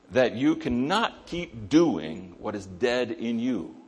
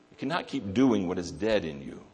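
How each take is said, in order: First: Slow, weighty, each word placed; slow emphatic statement. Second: Said in the usual way. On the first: Shown as a demonstration. Preacher stating the key truth to the congregation, slow and weighty. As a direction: lay it down slowly so it sinks in.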